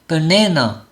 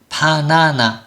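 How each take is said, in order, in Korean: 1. 가운데 모음만 완전하고 나머지는 약하게 발음합니다. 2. 세 모음 모두 완전한 모음으로 발음합니다. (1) "딱 한 개의 모음만 온전하게" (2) "한국말로 해보면 바나나 이렇게 되죠"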